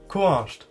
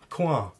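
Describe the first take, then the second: First: The phrase is said in full. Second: The phrase is reduced to one short word. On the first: "we would ask ku asht" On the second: "You can also reduce this to kua"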